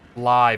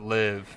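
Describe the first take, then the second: First: The vowel is long, rhyming with five. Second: The vowel is short, rhyming with give. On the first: It is the word used for broadcasting in real time. "when you're live streaming and you see the letters L I V E, that a mind might organically go to um live" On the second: It is the verb meaning to reside. "and not live"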